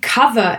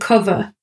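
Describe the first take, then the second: First: The word has a Southern accent. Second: The word has a non-Southern accent. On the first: The speaker's accent is shifting. "Look at me saying cover" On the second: This is the speaker's usual pronunciation. "instead of cover"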